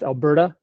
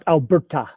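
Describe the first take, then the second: First: The middle consonant sounds like a soft d. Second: The middle consonant is a crisp t. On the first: The speaker calls it right. "you pronounce it with a D" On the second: The speaker calls it wrong. "not Alberta"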